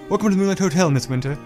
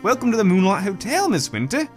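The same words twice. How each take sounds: First: It is said in an English accent. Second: It is said in a New Zealand accent.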